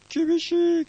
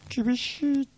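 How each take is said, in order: First: It is said at normal tempo and pitch. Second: It is said slowed down and lower, like tape. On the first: "非常に厳しいっていう人" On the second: "テープをのテンポを落としていくようにすると"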